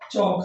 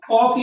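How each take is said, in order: First: The word begins with a ch sound. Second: The word begins with a k sound. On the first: The speaker calls it right. "यहाँ पर ये चौक है" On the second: The speaker calls it wrong. "इसको कॉक या कुछ ऐसा दूसरा word नहीं पढ़ा जा रहा है"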